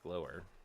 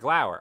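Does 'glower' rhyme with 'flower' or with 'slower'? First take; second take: slower; flower. First: The first part sounds like 'glow', rhyming with 'slower'. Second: The first part rhymes with 'flower', like 'glau'. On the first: "Pretty sure I pronounced it correctly" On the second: "So flower, glower"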